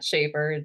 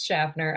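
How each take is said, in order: First: The name is said without an N sound. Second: The name is said with an N sound. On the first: The speaker calls it wrong. "they're eliminating the N" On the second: The speaker calls it right. "The N is not silent"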